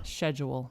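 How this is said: The word is said the British way. "it's more British to say"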